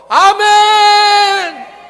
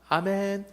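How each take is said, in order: First: It is said loudly and forcefully. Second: It is said quietly and weakly.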